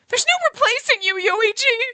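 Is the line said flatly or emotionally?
emotionally. It is said loudly, with strong emotion.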